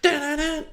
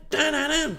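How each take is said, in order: Both takes have the same delivery.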